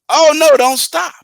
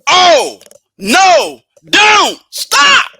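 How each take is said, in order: First: The phrase is said plainly, without added emphasis. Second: The phrase is said with strong added emphasis. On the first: Keep going. "I'm hearing" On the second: Stop now. "when you put emphasis"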